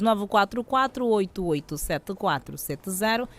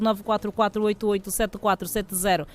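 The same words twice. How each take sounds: First: The digits are read slowly, one by one. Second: The digits are read quickly, run together. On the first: The speaker calls it right. "Mais devagarzinho?" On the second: The speaker calls it wrong. "muito acelerada"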